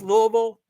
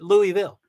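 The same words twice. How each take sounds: First: The name is squeezed into fewer than three syllables. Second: The name is said with three full syllables. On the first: The speaker calls it wrong. "incorrectly saying" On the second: The speaker calls it right. "Three three syllables"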